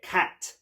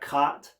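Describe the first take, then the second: First: The vowel is a sharper Cockney ah. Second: The vowel is a broad, open Scottish ah. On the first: "we get cat" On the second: "So instead of cat"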